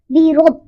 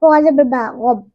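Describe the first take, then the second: First: बी रब said with the doubled b joined into रब. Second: बा रब spoken very slowly, the ba held as a separate beat; doubled ba shown slowly. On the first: Teacher shows the correct joined form बी रब. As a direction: run बी into रब as one. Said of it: "इस तरह". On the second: Teacher slows down to show the doubled letter in बा रब. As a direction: split बा रब slowly into two parts. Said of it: "पहली बार साकिन". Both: Shown as a demonstration.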